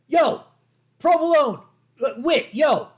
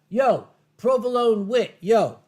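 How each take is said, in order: First: It is said in an angry, gruff tone. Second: It is said in a calm, plain tone.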